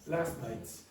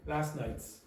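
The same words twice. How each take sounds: First: The T at the end of 'last' is dropped. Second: The T at the end of 'last' is dropped.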